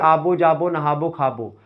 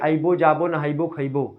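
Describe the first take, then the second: First: The verbs end in a rounded -bo sound. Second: The verbs have an added -i- before -bo. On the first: This is how Gonda speakers say it. "Gonda वाले बोलेंगे" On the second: This is how Bahraich speakers say it. "Bahraich में ही बोलेंगे"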